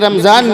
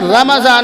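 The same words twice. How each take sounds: First: There is no vowel between the m and z. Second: A short a vowel follows the m. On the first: The speaker calls it wrong. "ये रमज़ान नहीं होता" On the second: The speaker calls it right. "रमज़ान होता है। ... मीम पे ज़बर पढ़ा जाएगा"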